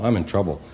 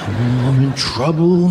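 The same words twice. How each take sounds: First: It is said flatly, without much emotion. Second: It is said with fearful, heightened emotion.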